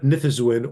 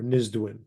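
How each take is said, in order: First: It has a th sound before the z. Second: It has a z followed by a d. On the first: The speaker calls it wrong. "not Nithzwin" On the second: The speaker calls it right. "it's Nizdbin or Nizdwin"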